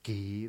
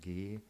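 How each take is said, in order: First: The G is hard and aspirated. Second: The G is soft and unaspirated. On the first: The speaker calls it wrong. "nicht so hart ausgesprochen, nicht so aspiriert, also nicht G" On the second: The speaker calls it right. "sondern G, ein weiches G"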